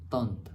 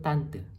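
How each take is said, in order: First: The word is said in its French-derived form. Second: The word is said in its Indonesian form. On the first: "هي أصلا من جت من كلمة فرنسية" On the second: "إحنا بنقول تانت"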